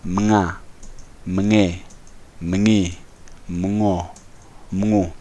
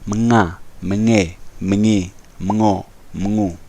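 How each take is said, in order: First: The syllables are read at a slower pace. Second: The syllables are read at a faster pace.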